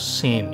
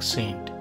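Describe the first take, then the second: First: The word ends on the n sound. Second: The word ends with a t sound. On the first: It is the name of the local coin. The speaker calls it right. "এখানের উচ্চারণ হলো সেন, এসি এন" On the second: It is the name of the US coin. The speaker calls it wrong. "সেন্ট US এর এক পেনির আরেক নাম"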